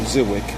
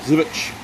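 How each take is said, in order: First: The name ends with a k sound. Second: The name ends with a ch sound. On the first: The speaker calls it wrong. "I've been pronouncing it Ziwick. ... forgive me for the, the mispronunciation" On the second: The speaker calls it right. "if I pronounce it correctly"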